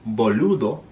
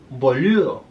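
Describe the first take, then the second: First: The D sound is clearly pronounced. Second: The D sound is slurred and soft. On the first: "I'm not saying boludo" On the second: "pero boludo"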